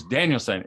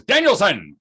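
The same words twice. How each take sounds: First: Said in the usual way. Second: Stern call. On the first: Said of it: "He goes". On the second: Retold or imitated. Sensei calls student sharply.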